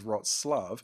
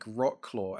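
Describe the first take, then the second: First: It sounds quite unlike an English reader's guess. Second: It sounds the way an English reader would guess. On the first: This is how the name is actually pronounced. The speaker calls it right. "nope, the pronunciation of that is" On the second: The speaker is guessing from the written form. The speaker calls it wrong. "you look at how it's spelled"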